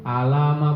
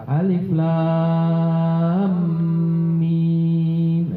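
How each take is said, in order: First: Each letter is said as a short vowelled syllable. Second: Each letter is said by its full name. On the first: The speaker calls it wrong. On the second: The speaker calls it right. "diucapkan dengan nama hurufnya"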